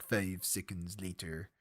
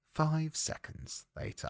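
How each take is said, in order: First: Put-on slow, low, soft French-accented narrator; drawn-out French-accented caption read; SpongeBob voice. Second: Otherwise voice. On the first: Reading a film title card, SpongeBob narrator's French accent. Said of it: "read it in the SpongeBob voice". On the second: Shown as a demonstration. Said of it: "But otherwise, it's like".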